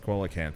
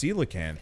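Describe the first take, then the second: First: The word is sounded out as it is spelled. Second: The word is said differently from its spelling. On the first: The speaker calls it wrong. "I pronounced that wrong for a long time. I've always uh, read it as" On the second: The speaker calls it right. "I think it's coelacanth. ... pronounced weird, like you can't phonetic it"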